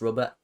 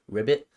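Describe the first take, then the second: First: The word is said in its ordinary form. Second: The word is said as it sounds in the show. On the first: "They they pronounce robot as" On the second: "the way that the people in the show pronounce it"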